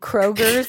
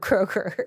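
First: The name ends with an added s sound. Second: The name ends without any added s sound. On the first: The speaker calls it wrong. "my mom who calls ... Kroger's instead of Kroger" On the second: The speaker calls it right. "instead of Kroger"

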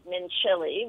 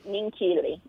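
First: The middle consonant is a soft ch sound. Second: The middle consonant is a hard k sound. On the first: The speaker calls it wrong. "you were pronouncing it Mincilli, which is how it's spelled" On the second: The speaker calls it right. "But the C-H is actually hard, so it's Mincilli"

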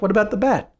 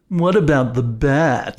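First: It is said in a plain, sincere tone. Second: It is said in a mocking, sarcastic tone. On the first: The suggestion is meant seriously. The speaker calls it wrong. "You were like, ... that was not sarcastic at all" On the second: The suggestion is not meant seriously. The speaker calls it right. "When sarcasm would be"

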